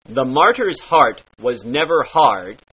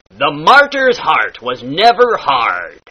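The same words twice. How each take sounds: First: Said in the usual way. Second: "martyr's", "heart", "hard" with heavy rolled R, slow; hard pirate R. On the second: Shown as a demonstration. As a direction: lean hard on every R in "hard". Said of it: "the hard R".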